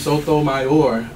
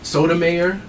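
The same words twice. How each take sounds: First: The stress is on the final syllable. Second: The stress is on the second-to-last syllable. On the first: "as Barack Obama initially pronounced it" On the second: "like Niedermeyer"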